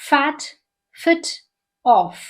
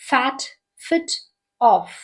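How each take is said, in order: Both takes have the same delivery.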